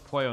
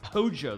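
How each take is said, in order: First: The word is said in a standard Spanish accent. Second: The word is said in an Argentine Spanish accent. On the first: The speaker calls it right. "of course it's like it's pollo" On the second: The speaker calls it wrong. "they just say like pojo"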